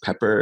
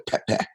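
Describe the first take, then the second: First: It is said with a standard English pronunciation. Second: It is said with a West African pronunciation. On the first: It lacks the visceral edge. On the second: It carries a visceral sense of heat.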